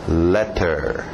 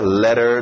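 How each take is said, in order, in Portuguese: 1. O T do meio é um T nítido e claro. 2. O T do meio é um toque suave e rápido. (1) "aquele T bem nítida" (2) "Não se preocupe com a pronúncia rápida"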